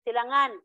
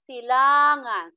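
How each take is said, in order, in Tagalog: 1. Nasa huling pantig ang diin. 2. Nasa ikalawang pantig mula sa hulihan ang diin. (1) "hindi siya malumay" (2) "So ang diin nasa la"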